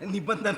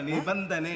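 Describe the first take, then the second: First: The word ends with an 'a' vowel. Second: The word ends with an 'e' vowel. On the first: The speaker calls it wrong. "ನಿಬಂಧನ ಅಲ್ಲ" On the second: The speaker calls it right.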